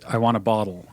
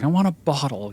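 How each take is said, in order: First: It is said in a plain, neutral tone. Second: It is said in a snotty, whiny tone.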